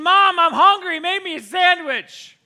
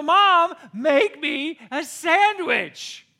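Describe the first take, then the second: First: Put-on loud, high kid yell to the kitchen; yelled demand. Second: Loud, very slow drawn-out call to mom; drawn-out yell. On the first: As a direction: yell for mom from the next room, stretching it out. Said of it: "So I yelled in the kitchen". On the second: Retold or imitated. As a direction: stretch the demand out to the kitchen. Repeats demand.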